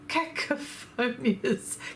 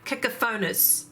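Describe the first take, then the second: First: It has an extra 'ee' sound, five syllables. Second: It has no extra 'ee' sound, four syllables. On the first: The speaker calls it wrong. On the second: The speaker calls it right. "I said it correctly in the end"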